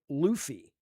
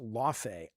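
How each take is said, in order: First: The name is said like 'Luffy'. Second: The name is said like 'Lawfay'. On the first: The speaker calls it wrong. "I will continue to say it wrong" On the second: The speaker calls it right. "no, Jaffe, it's Lawfay"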